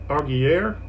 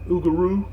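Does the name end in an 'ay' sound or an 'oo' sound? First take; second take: ay; oo. First: The name ends in an 'ay'-like sound. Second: The name ends in an 'oo'-like sound. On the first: The speaker calls it wrong. "I was pronouncing it Aug- Augier" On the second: The speaker calls it right. "it's uh, Ugaroo"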